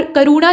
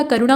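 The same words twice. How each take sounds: First: करुणा with a drawn-out oo; wrong long oo. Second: करुणा with a short middle u; quick middle vowel in करुणा. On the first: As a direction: say करुणा as ka-roo-naa. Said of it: "करुणा नहीं होता". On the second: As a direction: say करुणा as ka-ru-naa. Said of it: "करुणा होता है". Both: Shown as a demonstration.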